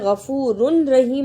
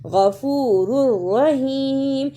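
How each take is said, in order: First: A clear n is said before the r. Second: The n merges into a doubled r sound. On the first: The speaker calls it wrong. "इसे गफूरुन रहीम नहीं पढ़ना" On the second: The speaker calls it right. "रा को रा से मिलाना है शद के साथ"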